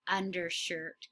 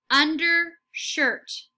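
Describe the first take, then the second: First: Quiet repeat of undershirt; softer echo. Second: Slow, louder undershirt; slow model word. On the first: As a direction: echo "Undershirt" softly after the model. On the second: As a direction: stretch "Undershirt" out slowly, part by part. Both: Shown as a demonstration. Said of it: "say it right before the teacher".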